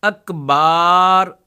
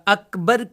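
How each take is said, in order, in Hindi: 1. दूसरे अक्षर में खिंचा हुआ, लंबा स्वर है। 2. दूसरे अक्षर में छोटा स्वर है। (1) "इनको खींचते रहते" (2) "अकबर की जगह"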